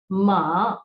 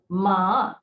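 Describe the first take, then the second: No difference in how they are said.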